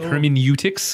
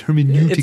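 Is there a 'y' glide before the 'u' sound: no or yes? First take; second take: yes; no. First: The 'u' is said with a 'y' glide. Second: The 'u' is said without a 'y' glide.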